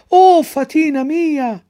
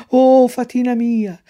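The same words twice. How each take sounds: First: Even higher, louder, slow straining call; louder cry. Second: Loud, higher, slow joyful cry. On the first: Pinocchio calls again to the fairy, straining and louder. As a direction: stretch the cry out as far as it goes. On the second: Pinocchio calls to his fairy from the ring, loud. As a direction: call out to the fairy in the box. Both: Acted. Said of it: "si provò a gridare".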